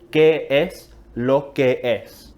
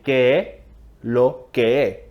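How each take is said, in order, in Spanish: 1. La frase se dice completa, con sus sonidos S. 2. La frase se dice sin los sonidos S. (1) "de hecho es una frase más larga" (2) "cortamos las S"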